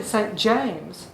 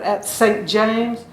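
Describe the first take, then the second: First: Said in the usual way. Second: "at Saint James" drawn out slowly with weight on SAINT; "at Saint James" slow, leaning on "Saint"; stretched rhythm. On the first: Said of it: "it's really Saint James". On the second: Shown as a demonstration. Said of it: "you have to stretch it a little bit".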